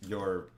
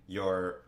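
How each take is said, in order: Both takes have the same delivery.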